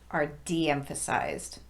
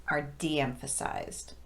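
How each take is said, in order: Both takes have the same delivery.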